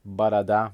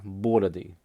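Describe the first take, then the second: First: "борода" stressed on the final а, ba-ra-DA; stress on last syllable. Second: "бороды" stressed on the first о, BO-ra-dy; stress on first syllable. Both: Shown as a demonstration. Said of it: "the stress is in the same place".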